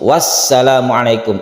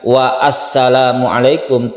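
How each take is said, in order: First: The 'a' after wa is dropped and linked. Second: The 'a' after wa is pronounced separately. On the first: The speaker calls it right. "langsung wassalamualaikum, a-nya menjadi hilang" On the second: The speaker calls it wrong.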